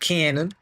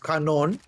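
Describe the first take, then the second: First: The word is said with an English pronunciation. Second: The word is said with a French pronunciation. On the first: The speaker calls it wrong. "not cannon" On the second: The speaker calls it right. "the French cannons, so it's canon"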